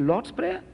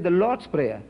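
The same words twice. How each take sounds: First: "Lord's Prayer" pitched high with a rising end; questioning echo. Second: Said in the usual way. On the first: Retold or imitated. Speaker questions the missionaries' wording, "Lord's Prayer" as a high rising question. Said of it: "We don't talk like that". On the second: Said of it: "he says, back of it".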